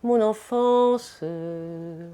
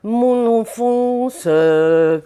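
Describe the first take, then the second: First: The final vowel thins out and fades into breath. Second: The final vowel is flat and stops abruptly. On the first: The speaker calls it right. "qui s'affine et qui se termine comme un cerf-volant" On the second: The speaker calls it wrong. "elle faisait"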